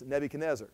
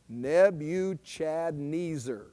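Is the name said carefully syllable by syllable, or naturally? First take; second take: naturally; carefully. First: The name is said smoothly at a natural pace. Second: Each syllable is spelled out clearly and carefully.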